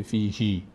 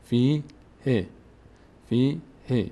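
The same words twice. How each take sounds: First: فی هی with the last vowel stretched to "hii"; wrong long ending. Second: Long "fii", then a short "he" in فی ه; correct short ending. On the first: Teacher showing the mistake, wrongly lengthened ending. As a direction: hold the end of فی هی as long as the first. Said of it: "نمیشه فی هی". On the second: Teacher showing the right reading, short final vowel. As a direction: hold فی, cut ه short. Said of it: "فی هی نمیشه". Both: Shown as a demonstration.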